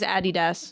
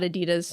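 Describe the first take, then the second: First: It is said the British and German way. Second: It is said a different, non-British way. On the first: The speaker calls it right. "proper pronunciation of it is Adidas" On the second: The speaker calls it wrong. "it's not Adidas"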